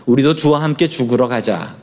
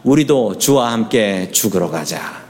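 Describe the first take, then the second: First: Said in the usual way. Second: Congregation recitation. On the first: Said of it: "도마의 고백을 따라해 보시죠". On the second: Shown as a demonstration. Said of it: "시작".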